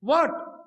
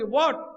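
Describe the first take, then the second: First: Short, sharp mock retort what؟, a little higher; snappy what. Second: What؟ with a long rising tune; questioning what. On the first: Preacher mimics daughter-in-law's curt what؟. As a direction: toss off what؟ curtly, imitating a daughter-in-law. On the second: Retold or imitated. Preacher mimics daughter-in-law asking what؟ in English. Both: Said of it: "چلو ہم English میں یہ بول لیں گے".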